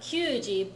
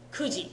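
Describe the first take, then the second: First: The word starts with a kyu sound. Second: The word starts with a plain ku sound. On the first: The speaker calls it wrong. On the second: The speaker calls it right.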